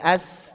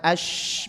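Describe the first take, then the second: First: The hissing sound is sharp and narrow. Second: The hissing sound is spread out and hushed. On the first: The speaker calls it right. "tapi as tajam" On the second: The speaker calls it wrong. "bukan ash, bukan nyebar"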